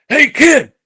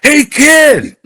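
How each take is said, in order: First: High, loud call to stop someone; imitated yell. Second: Big high holler, drawn out; louder imitated yell. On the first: Golf tough calling after a fleeing young player, yelling. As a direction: holler it sharply higher and louder. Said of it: "he yells at me". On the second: Golf tough hailing a player who ignores him, yelling louder. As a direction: yell it high at full volume. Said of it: "He yells louder".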